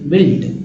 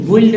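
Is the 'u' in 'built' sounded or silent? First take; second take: silent; sounded. First: The 'u' is silent, giving plain 'bilt'. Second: The 'u' is sounded before the 'i'. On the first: The speaker calls it right. "बिल्ट में यू जो है silent है" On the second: The speaker calls it wrong. "कुछ लोग बुइल्ट पढ़ते हैं, बुइल्ड नहीं"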